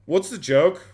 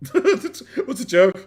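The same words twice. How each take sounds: First: Louder and higher, baffled; puzzled question. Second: Slow, laughing through the words. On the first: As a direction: ask it straight, puzzled. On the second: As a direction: laugh as you ask it again. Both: Real, not acted.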